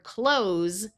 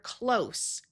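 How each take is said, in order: First: It ends with a buzzing Z sound. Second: It ends with a hissing S sound. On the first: It is a verb meaning to shut. "the Z sound of the word close" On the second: It is an adjective or adverb meaning near. "with the S sound"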